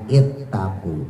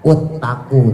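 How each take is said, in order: First: The word begins with an i vowel. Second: The word begins with a u vowel. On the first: The speaker calls it right. "dibacanya ittaku" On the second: The speaker calls it wrong. "bukan uttaku"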